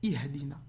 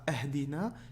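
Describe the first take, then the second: First: The word begins with an i sound. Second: The word begins with an a sound. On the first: The speaker calls it right. "c'est I" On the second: The speaker calls it wrong. "C'est pas Ahdina"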